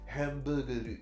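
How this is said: It is said with Japanese sounds. "just in Japanese phonetics"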